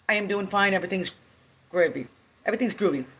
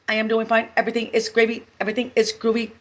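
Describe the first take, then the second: First: It is said in a natural, varied voice. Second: It is said in a flat, robotic monotone. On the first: The interviewer is speaking. "pretend I'm him" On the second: The applicant is repeating it as a robot. "you can speak monotone"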